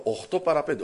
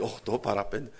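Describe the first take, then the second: First: Said in the usual way. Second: Οκτώ παρά πέντε said low and soft; dismayed low murmur. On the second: Retold or imitated. Preacher realizing he is late, dismayed murmur. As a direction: sink into dismay over the late hour.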